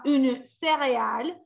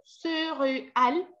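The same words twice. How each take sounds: First: "céréale" with a clear, closed é; right closed vowel. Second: "céréale" with a rounded "eu" sound, wrong; wrong vowel demo. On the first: Teacher giving the correct "céréale". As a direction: say "céréale" close to Spanish "cereal". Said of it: "yo digo cereal". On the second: Teacher showing the wrong "céréale" vowel. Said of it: "eso es otro fonema de la E". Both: Shown as a demonstration.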